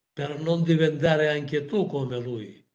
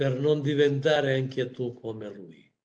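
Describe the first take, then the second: The two takes are said the same way.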